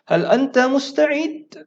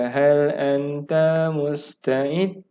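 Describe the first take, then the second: First: "Hal anta musta'id" swung very high, louder, like a real question; question intonation. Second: "Hal anta musta'id" slow and monotone, every syllable stretched level; no intonation. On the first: Teacher shows the right tone for asking, high questioning tune. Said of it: "Itu nadanya". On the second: Teacher shows students how not to read, toneless drone. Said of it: "dia tak ada intonasi". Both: Shown as a demonstration.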